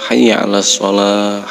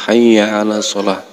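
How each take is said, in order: The two takes are said the same way.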